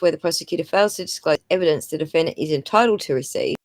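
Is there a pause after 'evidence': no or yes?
no. It flows without a break after evidence. The speaker calls it right.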